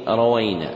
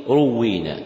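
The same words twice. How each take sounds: First: روينا with a after ra and waw; single w and "ay" glide in روينا; rawayna pronunciation. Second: روينا with u after ra, doubled waw; doubled w and long ee in روينا; ruwwina pronunciation. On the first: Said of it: "بفتح الراء والواو". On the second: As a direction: say روينا as "ru-WWEE-na". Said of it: "بضم الراء وكسر الواو مشددة". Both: Shown as a demonstration.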